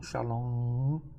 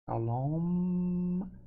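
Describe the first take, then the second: First: The word ends in a nasal vowel, lips open. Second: The word ends with a clear closed m sound. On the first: The speaker calls it wrong. "Não" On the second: The speaker calls it right. "também no final som de M"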